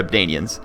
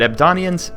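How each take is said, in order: First: Abdanians with a long A in the middle; Abdanians, middle syllable like "Dane"; alternative pronunciation. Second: Abdonians with an "on" sound in the middle; Abdonians, middle syllable like "don"; alternative pronunciation. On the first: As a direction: say Abdanians with "day" as the stressed syllable. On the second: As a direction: say Abdonians with an O as the stressed vowel. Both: Shown as a demonstration. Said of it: "is it Abdonians or Abdanians".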